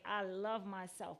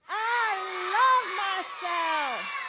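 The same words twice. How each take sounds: First: Said in the usual way. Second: Loud, high shouted chant; outside voice. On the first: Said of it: "but you're gonna say it loud". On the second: Real, not acted. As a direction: shout it out with pride. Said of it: "I want you to use the outside voice".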